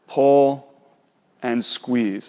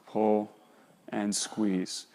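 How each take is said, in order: First: "Pull" loud and punched, "and squeeze" drops back; emphasize the pull. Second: "Pull" low and soft, "and squeeze" fading almost to a murmur; a quiet, easy cue without any punch; softer cue. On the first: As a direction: hit "Pull" hard, then let "and squeeze" settle. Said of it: "you really have to emphasize the pull". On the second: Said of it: "notice how I'm squeezing together". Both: Shown as a demonstration.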